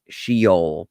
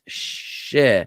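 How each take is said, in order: First: Sheol said as SHEE-ole; English spelling pronunciation. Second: Sheol slowly as sheh-OLE, in two parts; correct Hebrew pronunciation. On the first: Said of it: "like it would be spelled in, in English". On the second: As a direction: draw out Sheol with a short first vowel, sheh, then ole. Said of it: "but it's pronounced Sheol". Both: Shown as a demonstration.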